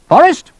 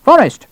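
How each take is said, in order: First: Loud, very high rising call; summoning shout. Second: Loud, high falling call; insistent shout. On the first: Colonel calling his major from next room, shouting. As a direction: call out sharply, pitch going up. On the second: Colonel summoning his tardy major, insistent shout. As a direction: shout the name down like a command. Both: Acted.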